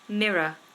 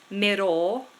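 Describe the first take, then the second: First: It ends in a weak uh sound, no R. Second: It ends with a clearly sounded R. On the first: The speaker calls it right. "See how I just do the uh at the end?" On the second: The speaker calls it wrong. "So you don't want mirror"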